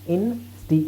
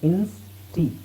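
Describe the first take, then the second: First: The word breaks before the s sound. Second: The word breaks after the s sound. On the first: The speaker calls it right. "ಇನ್ ಸ್ಟಿ ಹೇಳೋದು easy ತಾನೆ" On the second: The speaker calls it wrong. "Ins ಟಿ ಅಂತ ಹೇಳೋದ್ರ ಬದಲು"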